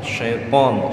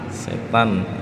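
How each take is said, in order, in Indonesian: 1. Bunyi t-nya emfatis, berat. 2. Bunyi t-nya biasa, ringan. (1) "Ini syaitan pakainya po ya" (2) "setan pakainya tak"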